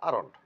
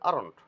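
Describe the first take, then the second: No difference in how they are said.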